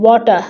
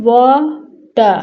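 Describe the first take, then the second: First: Said in the usual way. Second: "water" pulled apart slowly, wa, pause, ter; split into syllables. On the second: Shown as a demonstration. Teacher showing pupils two syllables, split into syllables. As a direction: say "water" as two long separate beats. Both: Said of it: "this word also have two syllable".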